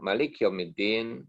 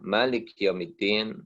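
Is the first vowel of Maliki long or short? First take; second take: short; long. First: The first vowel of the word is short. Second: The first vowel of the word is long. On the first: It means king. "kalau kita baca pendek" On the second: It means owner. "dengan memanjangkan seperti yang biasa"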